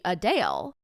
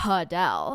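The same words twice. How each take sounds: First: [name] said uh-DALE; long ay in [name], ending like "dale"; this week's pronunciation. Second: [name] said huh-DELL with a breathy H; last week's pronunciation. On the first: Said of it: "U H dash D A L E". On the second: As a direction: put an audible HUH at the start of [name]. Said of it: "It was H U H". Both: Shown as a demonstration.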